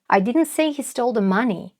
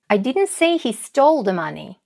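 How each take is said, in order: First: The word "money" is stressed. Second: The word "stole" is stressed. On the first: He stole something other than money. "украл он не деньги, а что-то другое" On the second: He took the money rather than stealing it. "Может, он не украл, а взял деньги"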